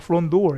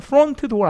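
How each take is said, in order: First: The t in front is weak and short. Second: The t in front is fully pronounced. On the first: The speaker calls it right. "front door 이렇게 짧게 발음" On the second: The speaker calls it wrong. "front door 아니라"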